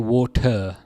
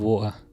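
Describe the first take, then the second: First: The middle t sound is clearly pronounced. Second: The middle t sound is left out. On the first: "I wouldn't say water" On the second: "I miss out the T in the middle"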